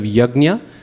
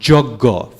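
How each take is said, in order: First: It begins with y and ends in gnya. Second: It begins with j and ends in a g sound. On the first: "instead of yagnya" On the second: "So joggo, instead of yagnya"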